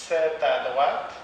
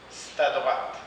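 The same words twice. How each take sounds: First: Said in the usual way. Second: "c'est" said as "st" in "c'est à droite"; spoken st before à. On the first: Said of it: "on le prononce parfois". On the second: Shown as a demonstration. Teacher models reduced "c'est à droite". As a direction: say "st à droite", vowel dropped. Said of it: "on le prononce parfois st".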